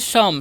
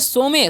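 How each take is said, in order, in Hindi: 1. यह एक अक्षर में बोला जाता है, जैसे 'sum'। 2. यह दो अक्षरों में बोला जाता है, जैसे 'so-meh'। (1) "सम पढ़ना है" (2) "सोमे नहीं पढ़ना है"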